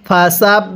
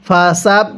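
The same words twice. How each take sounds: The two takes are said the same way.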